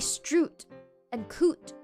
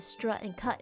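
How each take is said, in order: First: The vowel is a rounded 'oo' like foot. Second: The vowel is an open 'uh' unlike foot. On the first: This is how northern speakers say it. "some people from the north will say" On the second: This is how southern speakers say it. "the southerners split the pronunciation into"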